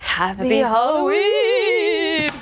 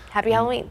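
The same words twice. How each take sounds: First: It is said in a put-on theatrical voice. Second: It is said in a normal speaking voice.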